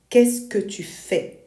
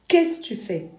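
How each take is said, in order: First: Every syllable is clearly articulated. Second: The syllables run together into one sound. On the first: "Instead of articulating qu'est-ce que tu fais" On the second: "it collapses into a single sound"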